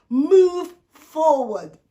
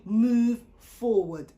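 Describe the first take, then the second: First: Loud, very slow command; slow booming divine command; commanding God. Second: Very slow, level urging; calm prompt. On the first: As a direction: boom it out as God's order. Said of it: "And here comes God". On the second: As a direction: lay out each word gently and slowly. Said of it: "God prompts him to say". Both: Retold or imitated.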